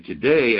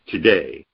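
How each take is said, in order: First: Said in the usual way. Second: "today" dropped low and leaned on; stressed today. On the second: Shown as a demonstration. Teacher stressing "today" to his class, a low firm hit. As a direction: land hard on "today". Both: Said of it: "He's emphasizing the exact word".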